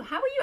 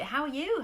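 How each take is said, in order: First: Much higher, bright lilt on are; high sing-song greeting. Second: Said in the usual way. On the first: Real, not acted. Host re-greeting viewers in a high sing-song.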